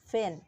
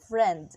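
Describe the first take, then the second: First: Only the first consonant of the cluster remains. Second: The full consonant cluster is pronounced. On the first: "in Hong Kong English, it becomes fin" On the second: "In standard English, the word is friend"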